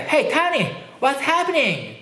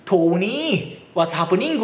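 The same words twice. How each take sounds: First: High-pitched American accent with open vowels. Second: Drawn-out Irish lilt, rising at the end; thick Irish accent. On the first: Shown as a demonstration. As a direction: hail a friend in broad American English. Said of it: "アメリカって". (高めの声でアメリカ英語の発音) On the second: Retold or imitated. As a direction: imitate heavy Irish-accented English, stretching the last syllable. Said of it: "すっごい訛りの子いてね". (語尾を伸ばし上げるアイルランド訛り)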